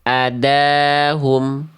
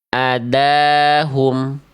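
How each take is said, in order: Both takes have the same delivery.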